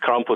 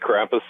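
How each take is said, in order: First: The word is pronounced with German sounds. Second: The word is pronounced with American English sounds. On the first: This is how the original language says it. "it's Krampus in German" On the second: The word is treated as an American word now. "I say Krampus in an American way"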